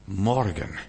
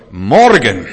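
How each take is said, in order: First: Soft, lower echo of the proclamation; hushed repeat. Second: Sudden loud ringing shout; God's proclamation. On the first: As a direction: let the word drop quietly. Same word repeated softly after shout. (leise, tiefer nachgesetzt) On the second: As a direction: proclaim it as God's booming command. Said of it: "dann sagt Gott". (lauter Ausruf als Gotteswort) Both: Acted.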